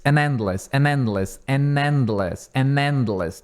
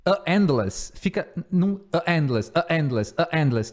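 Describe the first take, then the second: First: "an endless" with the n sliding into endless; an endless linked. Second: "a endless" with a stumbling break between a and endless; awkward a endless. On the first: Teacher to students, slow linked drill. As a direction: join "an endless" smoothly, n carried over. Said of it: "Em vez de". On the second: Teacher showing students the wrong form, halting. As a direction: show how clumsy "a endless" sounds. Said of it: "se você tentar falar". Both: Shown as a demonstration.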